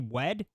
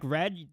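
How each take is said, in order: First: The word begins with a W sound. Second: The word begins with an R sound. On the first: "they would say wed" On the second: "words that start with R, like red"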